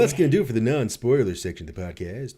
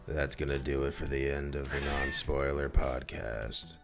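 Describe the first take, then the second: First: It is said in a normal voice. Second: It is said in a gloomy goth voice.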